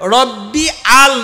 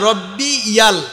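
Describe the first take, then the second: First: The words join with no y sound. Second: The words join through a y sound. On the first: The speaker calls it wrong. "রব্বি আল না" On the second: The speaker calls it right.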